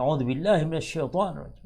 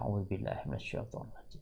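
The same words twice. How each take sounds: First: It is said loudly and forcefully. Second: It is said softly and quietly. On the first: The speaker wants to show that they are angry. "Sengaja kadang dikeraskan ta'udnya" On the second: The angry person does not want to be overheard. "pelan-pelan saja ya"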